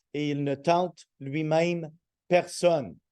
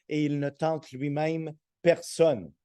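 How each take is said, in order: Both takes have the same delivery.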